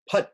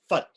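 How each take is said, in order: First: The word begins with a p sound. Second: The word begins with an f sound. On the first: The speaker calls it right. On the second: The speaker calls it wrong.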